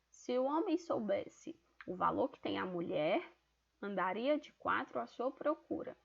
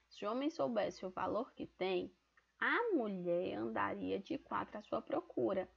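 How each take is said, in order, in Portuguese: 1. A pausa fica depois de 'mulher'. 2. A pausa fica depois de 'tem'. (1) "a primeira é colocando a vírgula após a palavra mulher" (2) "colocando depois do verbo tem"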